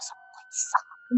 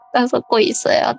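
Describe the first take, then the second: First: It is said very quietly. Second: It is said loudly and pleadingly.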